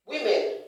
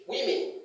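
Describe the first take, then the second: First: WOMEN as wi-MEN, higher and louder; women ending like the word men; wrong pronunciation. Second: WOMEN as WIM-in; women with short i in both syllables; correct pronunciation. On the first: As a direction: say women with a full e at the end. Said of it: "wrong English". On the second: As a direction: say women as wimmin, reduced ending. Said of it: "correct English". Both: Shown as a demonstration.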